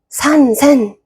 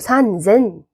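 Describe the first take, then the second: First: The second syllable begins with an s sound. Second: The second syllable begins with a z sound. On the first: The speaker calls it wrong. "힘든데?" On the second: The speaker calls it right. "편하다"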